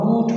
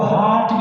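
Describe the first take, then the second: First: The vowel is a rounded 'oo' sound. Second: The vowel is a clear 'ah' sound. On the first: "हूट भी नहीं पढ़ रहे" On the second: "इसको हाट भी नहीं पढ़ रहे"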